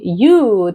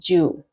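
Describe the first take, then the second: First: The word begins with a 'y' sound. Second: The word begins with a 'j' sound. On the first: The speaker calls it right. "instead of saying you" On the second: The speaker calls it wrong. "they'll say Ju"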